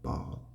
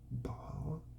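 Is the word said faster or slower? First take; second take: faster; slower. First: The word is said a little faster. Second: The word is said slowly and carefully. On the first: "And then you do it a little faster" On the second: "Now you put those together"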